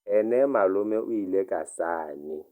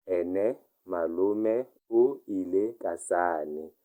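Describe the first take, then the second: First: Said in the usual way. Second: Slow, careful model reading; slow repeat. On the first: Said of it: "teacher reads the model sentence". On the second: Shown as a demonstration. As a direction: lay out Ene malome o ile ka sane slowly for learners. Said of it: "teacher repeats it slowly".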